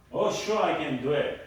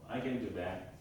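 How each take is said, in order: First: Keen, willing yes; eager agreement. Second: Lower, softer, half-hearted reply; reluctant agreement. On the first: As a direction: agree readily, with a lift on "Oh, sure". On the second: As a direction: agree without any keenness, voice dropping. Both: Shown as a demonstration. Demonstrates willing versus reluctant reply.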